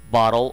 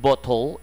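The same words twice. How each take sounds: First: It is said in an American accent. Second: It is said in a British accent. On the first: "이게 아니라" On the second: "이런 식으로 B 발음의 O 발음을 강하게"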